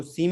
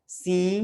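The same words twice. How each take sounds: First: सीम with a fully closed m; सीम with a clear final m; wrong pronunciation. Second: सी held long with a nasal vowel; stretched nasal सी without an m; nasal ending. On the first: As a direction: say सीम short, lips shut at the end. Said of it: "इसको सीम नहीं पढ़ना है". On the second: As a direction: say सी through the nose, lips open. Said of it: "नाक में ही रह जाएंगे". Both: Shown as a demonstration.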